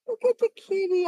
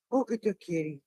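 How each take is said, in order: First: High cooing cat talk. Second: Said in the usual way. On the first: Real, not acted. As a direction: coo at the cat. Calling to a cat.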